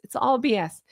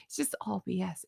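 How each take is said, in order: First: Said in the usual way. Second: Dropped low and soft; a quiet mutter of It's just all B S. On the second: Real, not acted. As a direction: mutter it under your breath. Repeated dismissal, first muttered.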